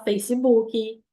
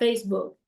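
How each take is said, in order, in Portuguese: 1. É dita com sotaque de português brasileiro. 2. É dita com sotaque inglês. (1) "A gente fala" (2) "A gente não consegue falar"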